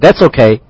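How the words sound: It is said in an easy, accepting tone. The thing is acceptable. "那么可能说这个东西你可以接受 you can accept it"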